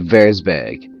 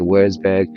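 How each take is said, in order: First: It begins with a V sound. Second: It begins with an English W sound. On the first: The speaker calls it right. "the W is a V" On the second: The speaker calls it wrong. "I didn't pronounce it right"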